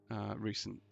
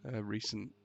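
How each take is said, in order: Both takes have the same delivery.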